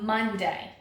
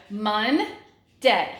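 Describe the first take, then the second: First: Said in the usual way. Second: "Monday" slowly broken in two, Mon, pause, day; teacher's syllable-by-syllable "Monday", with a clear gap; split into syllables. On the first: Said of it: "two syllables". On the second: Shown as a demonstration. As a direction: sound out "Monday" one syllable at a time. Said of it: "the word two syllables".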